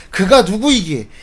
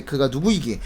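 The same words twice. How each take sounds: First: "그가 누구이기에" repeated louder; emphatic repeat. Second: "그가 누구이기에" read in a lowered pitch; lowered quotation. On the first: Preacher repeating the disciples' question to the congregation, emphatic. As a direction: hit "그가 누구이기에" harder to underline it. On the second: Preacher quoting the disciples' question, lowered. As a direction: let "그가 누구이기에" sink at the end of the verse. First take of quoted question. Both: Acted.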